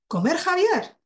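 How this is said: It is said with marked intonation and a pause. It becomes an acceptable utterance expressing surprise. The speaker calls it right. "Si le ponemos entonación y pausa"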